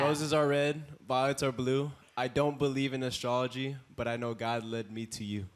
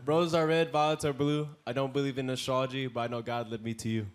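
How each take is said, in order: First: It is said slowly. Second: It is said at normal speed.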